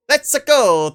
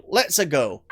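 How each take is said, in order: First: High, loud plumber catchphrase; Mario catchphrase. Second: Said in the usual way. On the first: Acted. Gamer playing Mario hits the switch, high excited call. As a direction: call it out like a cartoon plumber setting off.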